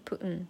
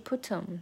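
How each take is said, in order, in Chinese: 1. 'put' 中的 t 不除阻。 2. 'put' 中的 t 明显除阻。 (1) "可能这个t 不想爆破" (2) "它不是put 'em"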